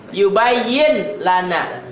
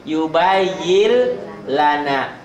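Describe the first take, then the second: First: Said in the usual way. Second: "yubayyil lana" with the n becoming a doubled l, very slow; slow recitation demo; merged reading. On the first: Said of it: "N-nya hilang tuh". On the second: Shown as a demonstration. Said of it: "N-nya jadi L double".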